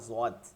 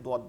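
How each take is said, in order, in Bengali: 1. বর্ণটি উর্দু ধাঁচে বলা হয়েছে, z-এর মতো উচ্চারণে। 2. বর্ণটি আরবি ধাঁচে বলা হয়েছে, d-এর মতো উচ্চারণে। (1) "উর্দুর মধ্যে বিশেষ করে বলা হয়" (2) "আরবির মধ্যে দোয়াতকে দোয়াত বলাটা উত্তম"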